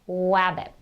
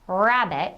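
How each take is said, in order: First: The word begins with a W sound. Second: The word begins with an R sound. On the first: The speaker calls it wrong. "they'll do W for R" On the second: The speaker calls it right. "instead of rabbit"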